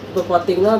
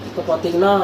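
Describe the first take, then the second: The two takes are said the same way.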